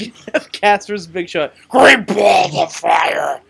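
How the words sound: The word balls is strongly stressed.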